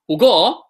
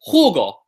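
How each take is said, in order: First: The stress is on the second syllable. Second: The stress is on the first syllable. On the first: The speaker calls it wrong. "not jugo" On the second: The speaker calls it right. "we say jugo"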